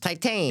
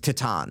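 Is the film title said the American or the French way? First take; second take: American; French. First: The title is said with an American pronunciation. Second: The title is said with a French pronunciation. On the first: This is how Americans say the name. "But for Americans, Titan" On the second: This is the original name of the film. "in the native tongue. ... Like the name of the movie is Titan"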